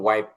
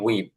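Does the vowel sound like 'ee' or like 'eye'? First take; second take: eye; ee. First: The vowel sounds like 'eye'. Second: The vowel sounds like 'ee'. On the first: This is the standard dictionary pronunciation. The speaker calls it right. "কিন্তু শুদ্ধ উচ্চারণ আসলে একটু ওয়াইপ" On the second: This is how people in the region commonly say it. The speaker calls it wrong. "এটা আমরা উচ্চারণ করি হচ্ছে উইপ"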